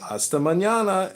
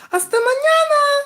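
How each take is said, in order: First: Said in the usual way. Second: Put-on "Hasta mañana" squeaked much higher as a girl's voice; mock desk clerk. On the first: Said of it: "So I said". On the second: Front desk girl saying goodbye to him, in a high mock girly voice. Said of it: "the girl at the front desk said".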